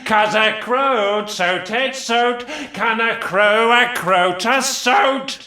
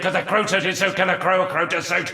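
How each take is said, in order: First: It is said slowly. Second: It is said at normal speed.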